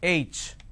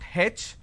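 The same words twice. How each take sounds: First: The letter is said the standard way. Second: The letter is said the southern Indian way. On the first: The speaker calls it right. "it's H" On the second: The speaker calls it wrong. "in southern part of India, everybody pronounces this letter as H. It's not H"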